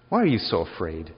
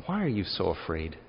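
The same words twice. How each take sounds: First: Louder, lower, unsympathetic; blunt rebuke. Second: Said in the usual way. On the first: Shown as a demonstration. Jesus rebuking his scared disciples, blunt and louder. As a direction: throw the question at them with no comfort. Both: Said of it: "He doesn't calm them down".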